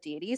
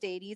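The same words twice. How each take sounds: First: The first syllable sounds like 'dee'. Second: The first syllable sounds like 'day'. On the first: It is the common American way. "Deities is very common in America" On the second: It follows the Latin word for God. "the Latin word for God is day"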